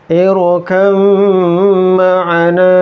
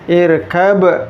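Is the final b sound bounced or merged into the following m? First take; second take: merged; bounced. First: The b merges into the following m sound. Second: The b is released with a bouncing echo. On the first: The speaker calls it right. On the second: The speaker calls it wrong. "Irkab dipantulkan"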